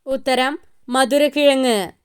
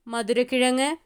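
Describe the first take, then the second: First: മധുരക്കിഴങ്ങ് stressed with a firm fall; confident falling reveal; answer reveal. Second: മധുരക്കിഴങ്ങ് with a light rise at the end; just one of the options; soft, slightly rising listing. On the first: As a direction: declare the correct answer. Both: Shown as a demonstration.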